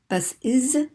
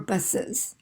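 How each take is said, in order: First: The last syllable sounds like 'is'. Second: The last syllable sounds like 'us'. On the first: "then we have to say is or us" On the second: "then we have to say is or us"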